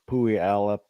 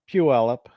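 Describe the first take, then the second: First: The name is sounded out as a misreading. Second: The name is said with its local pronunciation. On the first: The speaker calls it wrong. "usually you get like uh, Pui Alep or something like that" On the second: The speaker calls it right. "How do you pronounce it?"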